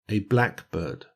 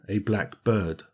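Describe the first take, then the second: First: The stress falls on black. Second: The stress falls on bird. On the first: It is a compound noun. "compound nouns ... pronounced with the stress on the first syllable" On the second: It is an adjective with a noun. "as an adjective-noun combination"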